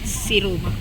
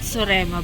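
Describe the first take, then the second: First: The name is said as Siruma. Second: The name is said as Sorema. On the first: The speaker calls it right. "but Siruma" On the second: The speaker calls it wrong. "she always mentions the names of the places we're going to incorrectly"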